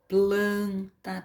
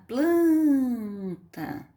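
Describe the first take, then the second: First: "planta" said evenly as plan, ta; measured syllables. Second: "planta" with PLAN high and long drawn out; stressed syllable. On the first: Teacher reading an example to underline, evenly measured "planta". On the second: Teacher showing the tonic syllable, stretched high PLAN in "planta". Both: Shown as a demonstration. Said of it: "a sílaba tônica dessas palavras".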